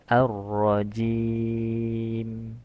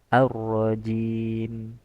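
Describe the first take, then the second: First: The vowel before m is held moderately long. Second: The vowel before m is held briefly. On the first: "Itu empat harokat" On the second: "Dua harokat"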